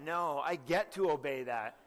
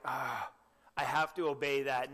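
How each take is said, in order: First: "get" lifted, said with relish; stress on get. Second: Reluctant, put-upon sigh on have to; mock a bored, dutiful groan; grudging sigh. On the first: Shown as a demonstration. Preacher correcting the congregation's attitude, stressing get. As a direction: lean on "get" as a glad privilege. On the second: Preacher mocking a reluctant believer, grudging sigh. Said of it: "I hope that you never look at God's commandments that way".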